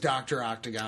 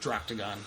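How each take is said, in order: First: It is said as two separate words. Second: The two words are blended into one word. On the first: "It is [name]" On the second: "I like Droctagon"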